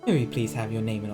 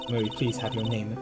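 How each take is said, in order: First: It is said in a put-on deep voice. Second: It is said in the speaker's normal voice.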